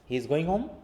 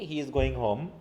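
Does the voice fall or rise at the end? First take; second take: rise; fall. First: The voice rises at the end. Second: The voice falls at the end. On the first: It is a question. "একটা সেন্টেন্সের স্টেটমেন্টকে আমি কিন্তু কোশ্চেনে রূপান্তর করে ফেলেছি" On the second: It is a statement. "যখন আমরা জাস্ট পড়ছি সিম্পলি"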